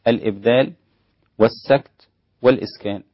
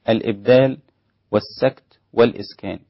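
No difference in how they are said.

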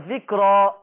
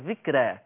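First: The r is pronounced heavy and velarized. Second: The r is pronounced light and thin. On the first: "التفخيم" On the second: "الترقيق"

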